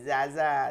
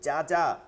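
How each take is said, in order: First: The j sound is soft and weak. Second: The j sound is hard and firm. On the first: The speaker calls it wrong. "এরকম বলি নাই" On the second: The speaker calls it right. "শক্ত করে হবে"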